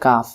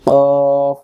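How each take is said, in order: First: It has a light, open 'a' vowel. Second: It has a heavy, rounded vowel from the throat. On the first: The speaker calls it wrong. "আমরা অনেকে এটাকে বলি কাফ, আসলে কাফ উচ্চারণ ভুল" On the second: The speaker calls it right. "মুখটা গোল হবে কফ"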